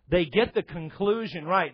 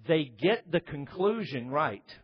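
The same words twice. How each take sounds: First: "They get the conclusion right" at normal pace, punch on "get"; emphatic restatement. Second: "they get the conclusion right" slow, stress on "get"; slow deliberate statement. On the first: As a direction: hammer it home a second time. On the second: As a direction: lay it down slowly, word by word. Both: Acted. Repeats phrase for emphasis.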